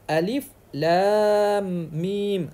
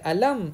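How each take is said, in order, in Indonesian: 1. Tiap nama huruf dibaca satu-satu. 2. Hurufnya disambung menjadi satu kata. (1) "huruf yang dibaca satu-satu" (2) "jangan baca alam"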